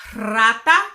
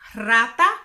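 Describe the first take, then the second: First: The r at the start is rolled. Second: The same.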